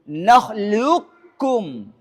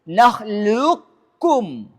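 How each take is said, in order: Both takes have the same delivery.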